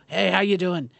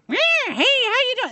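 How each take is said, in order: First: Offhand greeting in a natural voice; casual rodeo clown. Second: Very high, loud squealing clown greeting; hammed-up high-pitched circus clown; horrible clown voice. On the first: Acted. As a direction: say hello like a working rodeo hand, no clown voice. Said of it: "if you talked to a rodeo clown". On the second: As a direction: shriek hello like an over-the-top clown. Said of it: "some kind of horrible clown voice".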